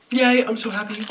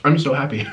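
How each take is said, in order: First: High, giggly happy squeal; squeaky happy voice. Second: Said in the usual way. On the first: Real, not acted. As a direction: squeal it out with delight. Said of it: "squeaky happy repeat". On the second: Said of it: "plain take of the happy line".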